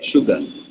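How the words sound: It has a soft, lightly pronounced r sound. "जो US वाले हैं या यूके वाले हैं वो शुगर बोलते हैं"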